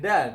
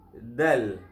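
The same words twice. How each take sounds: First: The D sound is hard and forceful. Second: The D sound is soft and gentle. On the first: The speaker calls it wrong. "Bukan dal" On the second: The speaker calls it right. "tapi dal. Lembut je"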